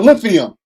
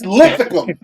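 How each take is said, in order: First: It sounds like the word lithium. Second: It has a 'k' sound before the ending. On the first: The speaker calls it wrong. "It's not lithium" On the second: The speaker calls it right. "It's Lithicum"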